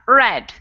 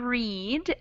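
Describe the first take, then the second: First: The vowel is short, like in 'bed'. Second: The vowel is long, like in 'seed'. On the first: It is past tense. "in the second one, we have a short E sound" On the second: It is present tense. "in the present tense, we have a long E sound"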